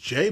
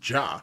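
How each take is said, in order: First: The name ends with an 'ay' vowel. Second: The name ends with an 'ah' vowel. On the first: This is how other people say the name. The speaker calls it wrong. "people say his name is Jay" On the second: This is how the name should be said. The speaker calls it right. "I'm pretty sure you pronounce it as Ja"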